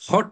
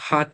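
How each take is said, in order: First: The vowel is a short rounded 'o' sound. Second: The vowel is an open 'aa' sound. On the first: The speaker calls it wrong. "হট বলে না ওরা" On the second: The speaker calls it right. "হাট বলে"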